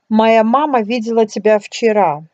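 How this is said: The word вчера carries the main stress. The point is when it happened. "If you want to emphasize that it happened yesterday"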